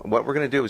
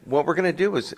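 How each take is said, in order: First: It is said in a normal speaking voice. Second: It is said in a high, squeaky voice. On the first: The speaker uses his own voice. "I'll stop him imitating him now" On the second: Someone else is being imitated. "he has a squeaky voice, so I'll imitate him"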